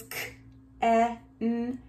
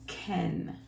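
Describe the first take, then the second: First: "K-E-N" slowly, one sound at a time. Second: Said in the usual way. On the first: Shown as a demonstration. Teacher introducing the dog's name, sounded out. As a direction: stretch and separate each sound in K-E-N. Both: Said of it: "the dog's name is K-E-N".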